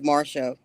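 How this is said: The name is said in an American accent.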